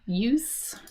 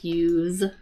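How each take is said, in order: First: The word ends with a hissing S sound. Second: The word ends with a buzzing Z sound. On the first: It is the noun. "the pronunciation is use" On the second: It is the verb. "the pronunciation changes to use with a Z sound"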